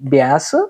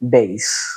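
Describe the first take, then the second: First: The vowel is short, as in gas. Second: The vowel is long, as in base. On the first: It names a kind of fish. "Fish అయితేనేమో బ్యాస్ అంటాం" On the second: It names a musical instrument. "Musical instrument ... బేస్ అని పిలవాల్సి ఉంటుంది"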